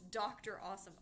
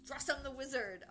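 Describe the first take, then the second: First: The name is said as doctor, then awesome. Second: The name is blended into one word, drawsome. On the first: The speaker calls it right. "it's Dr. Awesome" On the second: The speaker calls it wrong. "So it was like drawsome"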